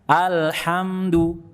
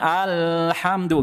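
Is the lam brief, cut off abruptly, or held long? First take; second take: brief; held long. First: The l sound flows briefly, then releases. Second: The l sound is held too long. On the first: The speaker calls it right. "Dialirkan sedikit suaranya, kemudian lepaskan" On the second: The speaker calls it wrong. "bukan kelamaan"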